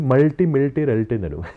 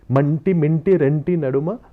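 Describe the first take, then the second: First: The consonant before each t is an L sound. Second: The consonant before each t is an N sound. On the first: The speaker calls it wrong. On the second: The speaker calls it right.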